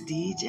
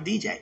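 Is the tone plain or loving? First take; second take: loving; plain. First: It is said in a warm, loving tone. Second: It is said in a plain, everyday tone.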